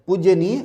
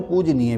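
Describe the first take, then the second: First: पूज्यनीय with "jya" before neeya; wrong form. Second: पूजनीय with plain "j" before neeya; correct form. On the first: Teacher flags an error, पूज्यनीय with an extra y. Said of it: "गलत है". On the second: Teacher gives right word, पूजनीय without y after j. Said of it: "भी सही है". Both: Shown as a demonstration.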